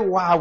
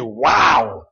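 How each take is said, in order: First: It is said softly and gently. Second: It is said loudly with passion.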